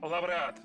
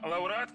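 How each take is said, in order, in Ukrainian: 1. Після 'a' у слові є приголосний 'v'. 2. Після 'a' у слові є голосний 'u'. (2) "Як правильно, лауреат чи лавреат?"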